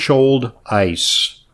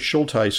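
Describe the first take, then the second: First: The name begins like 'shoulder' and ends 'ice'. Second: The name does not begin like 'shoulder'. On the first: The speaker calls it right. "like spelled like shoulder, but the first without the ER, with an ice at the end" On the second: The speaker calls it wrong. "I mispronounced it"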